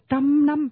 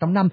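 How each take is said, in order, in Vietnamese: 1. Cả hai âm tiết đều được nhấn mạnh như nhau. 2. Âm tiết thứ hai mạnh hơn âm tiết thứ nhất. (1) "cái trăm năm là nhấn hai cái đều nhau" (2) "không ai đọc trăm năm"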